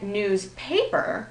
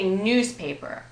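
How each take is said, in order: First: News PAPER, second part punched; slow down and lean on the paper of newspaper; contrastive stress on paper. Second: NEWSpaper, first part stressed; usual compound stress. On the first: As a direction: newspaper with the weight moved onto paper. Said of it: "we'd be trying to distinguish it". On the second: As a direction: hit news and let paper fall away in newspaper. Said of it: "The pronunciation doesn't change". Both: Shown as a demonstration.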